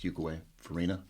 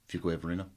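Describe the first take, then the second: First: The two words are said clearly separated. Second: The two words are run together as one. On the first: "people don't say it, you know" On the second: "like it's one word"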